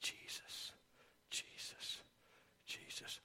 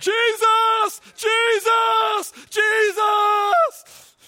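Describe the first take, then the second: First: It is said softly and quietly. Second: It is said loudly and frantically.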